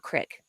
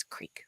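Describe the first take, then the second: First: "crick" with a short i, rhyming with brick; short vowel. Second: "creek" with a long ee, dropped softer. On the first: Rejecting a regional form, "crick" with short vowel. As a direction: say "crick" with a quick ih sound. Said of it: "it's not crick". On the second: Correcting the coworker, "creek" with a long ee. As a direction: stretch the vowel of "creek" to ee. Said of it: "It's creek". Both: Shown as a demonstration.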